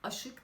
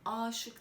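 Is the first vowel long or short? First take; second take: short; long. First: The first vowel is kept short. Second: The first vowel is drawn out long. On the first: The speaker calls it wrong. "Aşık değil" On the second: The speaker calls it right. "aşık derken A'yı uzattı"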